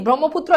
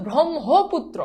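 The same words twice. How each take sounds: First: ব্রহ্মপুত্র quickly run together as "brommoputro"; ব্রহ্মপুত্র the common way, with no "ho" syllable; wrong pronunciation. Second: ব্রহ্মপুত্র stretched as "brom-ho-putro"; careful syllables in ব্রহ্মপুত্র, h clearly heard; correct pronunciation. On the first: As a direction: drop the h in ব্রহ্মপুত্র. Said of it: "এটা না". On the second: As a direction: sound a separate "ho" in ব্রহ্মপুত্র. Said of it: "এটার উচ্চারণ হচ্ছে ব্রহ্মপুত্র". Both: Shown as a demonstration.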